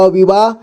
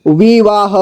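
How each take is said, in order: First: Said in the usual way. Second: विवाह as वि-वा-ह; syllable by syllable. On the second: Shown as a demonstration. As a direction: sound out विवाह ending "ha". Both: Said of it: "एक ही बार में पढ़ेंगे".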